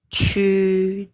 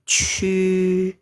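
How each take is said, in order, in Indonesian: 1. Nadanya tetap datar. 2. Nadanya tetap datar.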